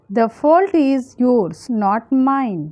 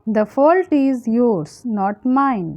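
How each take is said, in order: Both takes have the same delivery.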